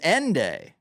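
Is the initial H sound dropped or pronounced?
dropped. The word begins with no H sound.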